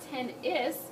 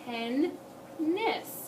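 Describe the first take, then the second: First: The second syllable starts with a vowel. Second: The second syllable starts with an n. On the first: The speaker calls it wrong. "it's not ten-is" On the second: The speaker calls it right. "it's ten-ness"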